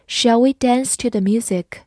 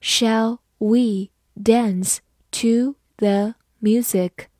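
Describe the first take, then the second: First: Said in the usual way. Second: Slow, one word at a time; teacher's word-by-word read-along. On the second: Shown as a demonstration. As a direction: read it slowly with clear gaps between words. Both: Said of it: "慢慢来读".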